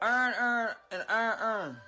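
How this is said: It is said in a Baltimore accent.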